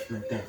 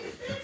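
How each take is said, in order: First: Said in the usual way. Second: "Like that" jumped way up with a laugh; squeaky high. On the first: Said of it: "Like that. (repeated higher)". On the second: Shown as a demonstration.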